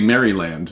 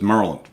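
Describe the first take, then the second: First: It is said in an English accent. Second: It is said in a local Maryland accent. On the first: The speaker is an outsider from England. "you're English, you say Maryland" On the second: The speaker is from the place. "a Marylander says Maryland"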